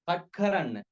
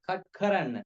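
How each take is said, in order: Both takes have the same delivery.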